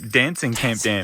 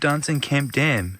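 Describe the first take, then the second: First: It is said in an American accent. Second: It is said in a non-American accent.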